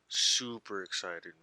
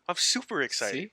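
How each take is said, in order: First: It is said flatly, with little energy. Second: It is said with lively, perky energy.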